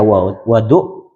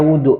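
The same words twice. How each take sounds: First: The first vowel is an 'a' sound. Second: The first vowel is a 'u' sound. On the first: The water used for the ablution. "bi fathil wawi" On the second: The act of performing the ablution. "bi dhammil wawi"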